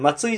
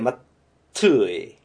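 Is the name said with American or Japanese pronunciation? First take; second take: Japanese; American. First: It is said the Japanese way, as Matsui. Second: It is said the American way, like Mattway. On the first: The speaker calls it wrong. "松井じゃなくて" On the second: The speaker calls it right. "マットゥエ。トゥエですね。"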